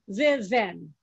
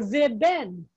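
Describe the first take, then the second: First: It starts with veh, then ven. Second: It starts with veh, then ben. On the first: "you would never say in Hebrew ve ven" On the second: "You can't do that, or ve ben"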